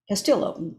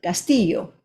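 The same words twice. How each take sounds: First: The name is said with an anglicized pronunciation. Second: The name is said with a Spanish pronunciation. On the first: This is how others commonly mispronounce the name. The speaker calls it wrong. "instead of" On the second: This is how the name should be said. The speaker calls it right. "instead of"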